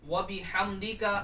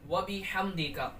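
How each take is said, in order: No difference in how they are said.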